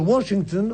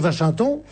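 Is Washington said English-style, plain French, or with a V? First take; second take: English-style; with V. First: It is said with an English-style pronunciation. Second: It starts with a V sound, old-fashioned. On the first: The speaker is showing off. "on est un snob ridicule" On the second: The speaker wants to seem chic in an old-fashioned way. "comme disaient les Français qui voulaient faire chic au début du siècle"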